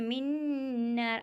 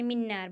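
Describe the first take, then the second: First: The n is held with a nasal hum. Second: The n is said plainly without a nasal hum. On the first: The speaker calls it right. "बल्कि मिन्नार, आवाज़ को नाक में घुमाएंगे" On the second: The speaker calls it wrong. "इस तरह नहीं"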